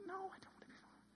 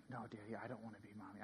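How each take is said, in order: First: Put-on very high, very soft child voice; imitating a little girl's faint squeal; four-year-old daughter. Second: Fast, very soft, low murmur; hushed quote of a daughter protesting; retold child's denial. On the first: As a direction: protest in a tiny airy falsetto. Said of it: "my four-year-old". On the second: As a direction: rattle it off quietly as the child's reply. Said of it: "our four-year-old".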